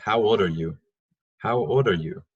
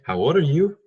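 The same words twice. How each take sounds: First: Put-on "How old are you?" stressing "old" and letting the end fall; correct falling tune. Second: Put-on "How old are you?" pushed higher and louder with "you" rising at the end; wrong rising tune. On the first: Teacher giving students the right version, falling end. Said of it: "só deixa no final, tranquilo". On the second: Teacher mocking the wrong rising wh-question for students. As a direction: overdo the lift on "you" as a mistake. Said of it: "Não, não seria". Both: Shown as a demonstration.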